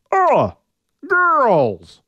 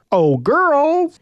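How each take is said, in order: First: High, loud, rough caveman call; a scruffy brute trying to shout. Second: High, loud call across the glen; shout. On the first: Orion's scruffy attempt at calling the girls, loud. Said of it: "the scruffy sound of his voice". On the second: Orion calling loudly to the seven girls, high shout. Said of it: "he shouted". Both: Acted.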